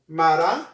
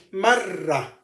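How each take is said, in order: First: Mara with one short tapped r; single r. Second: Marra with a long, held rr; doubled r. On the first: Teacher repeating the contrast, short single r. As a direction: flick the r in Mara just once. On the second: Teacher repeating the contrast, long doubled r. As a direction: stretch the rr in marra. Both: Shown as a demonstration. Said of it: "One more time".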